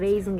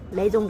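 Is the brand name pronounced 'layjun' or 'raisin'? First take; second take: raisin; layjun. First: It is said like the English word raisin. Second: It is said with an l-sound and ending jun. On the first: This is how Mongolians read the name. "монголчууд ингээ унших юм бол ер нь бол raisin гэж унших" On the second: This is how Koreans say the name. "энэ солонгосчууд юу дурддаг вэ гэхээр лайжун"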